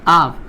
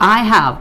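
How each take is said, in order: First: The words are contracted into one syllable. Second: Both words are said in full. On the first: "it's like I've" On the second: "so I have"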